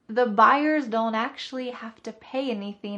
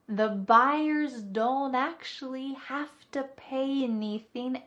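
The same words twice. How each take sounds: First: The sentence is spoken at a faster pace. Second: The sentence is spoken at a slower pace.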